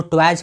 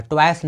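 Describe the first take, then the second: First: ट्वाइज closing on a voiced j; correct j ending. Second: ट्वाइस closing on a hissed s; misreading to avoid. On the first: Teacher telling learners how to read toys, correct j ending. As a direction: say ट्वाइज with final j, as in jam. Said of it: "इसको ट्वाइज पढ़ना है". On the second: Teacher warning learners off a mistake, misreading to avoid. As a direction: say ट्वाइस with final voiceless s. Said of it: "ट्वाइस नहीं पढ़ना है". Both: Shown as a demonstration.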